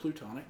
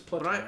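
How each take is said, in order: First: The second syllable has an 'oo' vowel. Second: The second syllable has an 'ah' vowel. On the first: The speaker calls it wrong. "I've just always said plutonic" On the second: The speaker calls it right. "but it's platonic"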